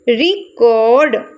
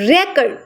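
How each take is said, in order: First: The stress is on the second syllable. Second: The stress is on the first syllable. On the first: It is used as a verb. "Cord पे अब अगर हम stress देते हैं तो ये एक वर्ब बन जाएगा" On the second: It is used as a noun. "अगर हम इसके फर्स्ट पे स्ट्रेस देते हैं record"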